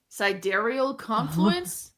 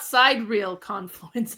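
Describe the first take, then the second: First: The first word is not split into 'side real'. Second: The first word is split into 'side real'. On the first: The speaker calls it right. "you said it right the first time" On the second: The speaker calls it wrong. "it's not side real confluence"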